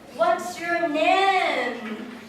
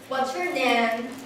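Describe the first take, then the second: First: The voice is lively, with clear pitch movement. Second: The voice is flat, with little pitch movement. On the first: "if we have the intonation" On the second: "we usually say"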